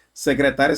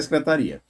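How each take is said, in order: First: Secretária with the stress on tá, se-cre-TÁ-ria. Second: Secretaria with the stress on ri, se-cre-ta-RI-a. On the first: Teacher contrasting two words for attentive students, stressing tá. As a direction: lean on tá in Secretária. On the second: Teacher contrasting two words for attentive students, stressing ri. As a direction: lean on ri in secretaria. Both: Shown as a demonstration. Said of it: "Fiquem atentos".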